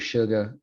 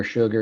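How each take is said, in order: First: Sugar as Southern "shuga", final r dropped; Louisiana-style r-less sugar; Southern accent. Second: Said in the usual way. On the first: Retold or imitated. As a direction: imitate a Southern grandmother saying "shuga" for sugar. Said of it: "her Southern accent would come out". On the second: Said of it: "it was no longer sugar".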